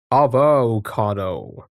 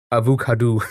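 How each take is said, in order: First: "Avocado" drawn out slowly as ah-voh-KAH-doh; slow careful avocado. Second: "avocado" said uh-voo-KAH-doo, short and light; other pronunciation. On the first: Streamer testing how she says avocado, slow and careful. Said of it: "That doesn't sound right to me". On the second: Streamer trying chat's suggested avocado, light uh-voo-KAH-doo. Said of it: "I like that one". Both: Shown as a demonstration.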